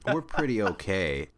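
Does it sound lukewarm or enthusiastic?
lukewarm. It sounds lukewarm, meaning only barely good.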